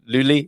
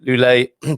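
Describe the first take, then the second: First: The name ends with an 'ee' vowel. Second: The name ends with an 'ay' vowel. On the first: This is the habitual way the speaker has said it. The speaker calls it wrong. "I've been saying Luli" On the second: This is the way the speaker now thinks is correct. The speaker calls it right. "I think it might be Lule"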